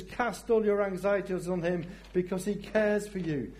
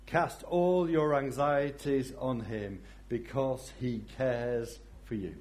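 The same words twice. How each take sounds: First: Higher, brighter reading; exuberant. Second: Said in the usual way. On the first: Shown as a demonstration. Pastor joyfully proclaiming the verse to the church. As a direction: proclaim it with joy. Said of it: "it says". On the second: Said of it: "One Peter five seven says this".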